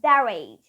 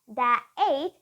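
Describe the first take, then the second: First: The words are joined with a linking R sound. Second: The words are said separately without a linking R. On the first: The speaker calls it right. "you will use the linking R and that is their age" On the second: The speaker calls it wrong. "not their age"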